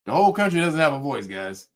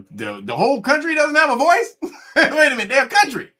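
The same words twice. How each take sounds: First: Lower, quick deadpan concession; subdued sarcastic explanation; mock resigned. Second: High-pitched, laughing disbelief; baffled, amused outburst; incredulous. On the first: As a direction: pretend to accept it, deadpan. Mock apology, accepts the claim. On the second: Real, not acted. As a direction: question it loudly, cracking up.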